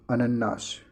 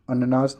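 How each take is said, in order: First: Said in the usual way. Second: अननाश with an undoubled n; single n. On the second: Shown as a demonstration. Teacher quoting the mistake, single n in अननाश. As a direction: say अननाश without holding the n. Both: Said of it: "अननाश नहीं".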